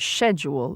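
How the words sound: It is said with a British pronunciation. "as opposed to schedule in Britain"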